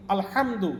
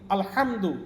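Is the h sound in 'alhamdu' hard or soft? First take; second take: hard; hard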